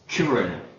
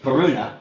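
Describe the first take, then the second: First: The stress falls on the first syllable. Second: The stress falls on a later syllable. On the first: The speaker calls it right. "put the accent on their first syllable" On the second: The speaker calls it wrong. "I thought it was"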